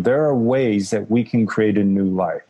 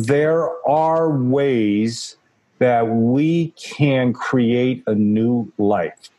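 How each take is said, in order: First: It is said a little bit faster. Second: It is said at a normal pace.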